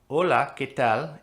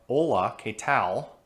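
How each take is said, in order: First: It is said with a Spanish accent. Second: It is said with a heavy American accent.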